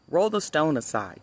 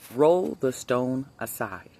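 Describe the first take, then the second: First: It is read in a plain narrating voice. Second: It is said in a deep, commanding voice.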